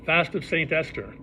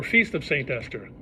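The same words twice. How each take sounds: First: The word "Fast" said plainly, like going without food; "Fast of Saint Esther" with a plain short a in Fast. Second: "Feast" said with a long ee, like a banquet. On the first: Holiday name read out, "Fast" as in not eating. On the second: Giving the other name of the holiday, "Feast" with a long ee. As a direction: stretch the ee in "Feast". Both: Shown as a demonstration. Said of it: "or Feast of Saint Esther".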